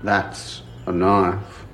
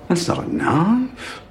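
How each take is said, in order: First: Low, slow Aussie "That's a knife"; Dundee knife line. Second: Dundee knife quote. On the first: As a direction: drop low and drawl out the famous line. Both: Pretend. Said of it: "[name] wears a Crocodile Dundee hat".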